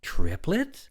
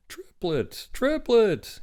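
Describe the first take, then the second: First: High, loud astonished question; exclaiming. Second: High exclamation, rising on the repeat; excited announcement. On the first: Woman reacts to news of triplets, astonished. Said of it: "She was exclaiming". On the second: Doctor announces the birth to the woman, excited. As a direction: announce it bigger the second time, falling endings. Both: A narrator's reading.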